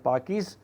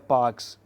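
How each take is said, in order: First: The name is said with two syllables. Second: The name is said with one syllable. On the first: The speaker calls it wrong. "sometimes we also pronounce as Parkis" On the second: The speaker calls it right. "but it's better Parks"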